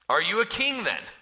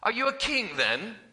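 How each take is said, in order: First: It is said in the speaker's ordinary accent. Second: It is said in a put-on British accent.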